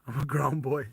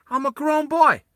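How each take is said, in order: First: Said in the usual way. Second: High, loud put-on kid voice. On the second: Shown as a demonstration. Player mocking his character, high childish voice. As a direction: pitch it way up and whine it out.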